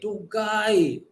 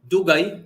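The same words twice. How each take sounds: First: The vowel is drawn out long. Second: The vowel is said short and plain. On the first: It is very late. "it's very late or very delayed" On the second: It is late. "dugay means late or delayed"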